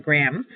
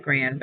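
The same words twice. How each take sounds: First: "gram" ending on a clear M; correct ending demonstrated. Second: "grand" said with an N and D ending; wrong ending demonstrated. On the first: Teacher correcting the word's ending for students, "gram" with final M. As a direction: give the right ending "gram", closed on M with no D. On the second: Teacher warning students off a misreading, "grand" with N-D ending. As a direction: show the mistake "grand", ending in N-D instead of M. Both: Shown as a demonstration. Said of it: "not grand, but gram".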